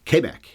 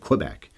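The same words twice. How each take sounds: First: The name begins with a plain K sound. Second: The name begins with a KW sound. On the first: This is how French speakers say it. "how they would say it. The French would say it" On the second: This is how English-speaking Canadians say it. "We always say Quebec"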